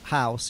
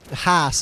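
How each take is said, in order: First: It is said in a standard accent. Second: It is said in an East London accent. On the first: "instead of" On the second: "East London, some people say"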